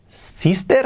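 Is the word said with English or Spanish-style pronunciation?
Spanish-style. It is said with Spanish-style sounds. The speaker calls it wrong.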